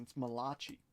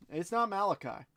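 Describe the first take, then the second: First: Malachi said muh-LAH-chee; correct name pronunciation. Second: Malachi said MAL-uh-kye, ending like "eye"; wrong name pronunciation. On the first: Host corrects the name for wife, Malachi as muh-LAH-chee. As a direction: stress the middle of Malachi, ending in "chee". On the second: Host corrects the name for wife, Malachi as MAL-uh-kye. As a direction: stress the first syllable of Malachi, rhyming its end with "sky". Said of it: "Mm-mm, it's Malachi". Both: Shown as a demonstration.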